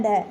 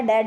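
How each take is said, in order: First: ढ said as a breathy flapped ढ़. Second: ड said as aspirated stop ढ, as in ढक्कन; firm 'ḍha' on ड, no flap; hard ढ. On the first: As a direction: flap the tongue on ढ with aspiration, 'ṛha'. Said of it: "इनका जो उच्चारण है वो बदल जाता". (ढ को जीभ पलटकर 'ढ़' बोलें) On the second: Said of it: "तो ये क्या बन जाता है". (ड को ढक्कन वाला 'ढ' बोलें) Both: Shown as a demonstration.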